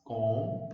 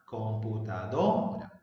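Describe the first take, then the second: First: "Computadora" in five pieces with long gaps; com... pu... ta... do... ra, dictating "Computadora"; syllable by syllable. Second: "computadora" slowed, DO rising and held; com-pu-ta-DO-ra, "computadora" said to show its accent; stress on DO. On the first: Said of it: "dividir en sílabas". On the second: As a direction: stretch and punch DO in "computadora". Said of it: "El acento está en la sílaba do". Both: Shown as a demonstration.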